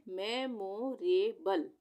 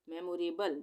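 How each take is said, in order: First: memorable drawn out slowly, syllable by syllable; slow blended reading. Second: Said in the usual way. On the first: Shown as a demonstration. Teacher slowly blends memorable for students, drawn out. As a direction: read memorable slowly, joining the parts. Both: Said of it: "तो अब हम इसको कैसे पढ़ेंगे?".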